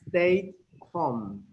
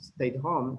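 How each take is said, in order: First: It is said slowly and carefully. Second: It is said quickly at conversational speed. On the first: "Porque lo estoy diciendo lento" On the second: "cuando tú lo escuches en una conversación"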